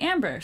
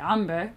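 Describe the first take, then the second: First: The name is said with an American accent. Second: The name is said with an Arab accent.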